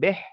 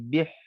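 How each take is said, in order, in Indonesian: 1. Vokalnya bunyi eh yang terbuka. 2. Vokalnya bunyi ee yang tertutup. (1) "bukan beh" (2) "ba baris bawah bunyi bih"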